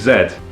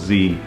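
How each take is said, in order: First: It is said the non-American way, as 'zed'. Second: It is said the American way, as 'zee'.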